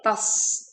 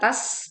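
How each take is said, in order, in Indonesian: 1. Bunyi t itu berat dan tebal. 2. Bunyi t itu ringan dan tipis.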